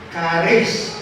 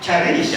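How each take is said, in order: First: The word is given a Greek pronunciation. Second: The word is given an English pronunciation. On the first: "pag pinunta mo sa Griego" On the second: "English pronunciation is charis"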